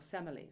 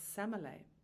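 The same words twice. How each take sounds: First: The name is said in the English way. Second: The name is said in a non-English way. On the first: The speaker calls it right. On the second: The speaker calls it wrong.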